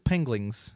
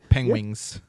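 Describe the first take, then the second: First: The word is said with an added 'l' sound. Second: The word is said without an added 'l' sound.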